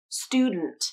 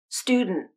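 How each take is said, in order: First: D bursts through the nose; the final T is released. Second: D bursts through the nose; the final T is stopped. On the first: "You can use nasal plosion and a true T at the end" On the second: "Or you can use nasal plosion and a stop T at the end"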